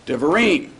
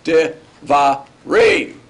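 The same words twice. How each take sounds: First: "Devarim" in one go, accent on the end; Devarim with end stress, unbroken; stress on last syllable. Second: "Devarim" slowly, syllable by syllable, landing on "rim"; drawn-out Devarim, final syllable accented; stress on last syllable. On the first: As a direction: say "Devarim" as one word, leaning on the final "rim". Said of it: "with the accent on the end". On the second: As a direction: break "Devarim" into De, va, rim, punching the end. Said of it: "the accent is moved to the end". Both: Shown as a demonstration.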